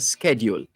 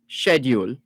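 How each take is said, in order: First: It is said with an American pronunciation. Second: It is said with an English pronunciation.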